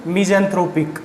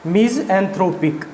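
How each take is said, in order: First: Said in the usual way. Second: मिज़ैंथ्रोपिक slowly, split after "miz"; syllable breakdown. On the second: Shown as a demonstration. Teacher showing how to say the word, मिज़ैंथ्रोपिक slowly in parts. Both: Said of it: "क्या बोलेंगे इसको?".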